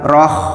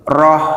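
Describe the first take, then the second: First: The final h is rough and scraped. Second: The final h is a clean, soft breath. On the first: The speaker calls it wrong. "bukan roh" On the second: The speaker calls it right. "ha itu hamas dan tidak kotor sedikit pun"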